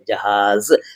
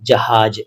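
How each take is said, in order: First: The word ends in a 'z' sound. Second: The word ends in a 'j' sound. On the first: The speaker calls it right. "लेकिन ये जहाज़ है" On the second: The speaker calls it wrong. "इसको कई लोग जहाज कह देते हैं"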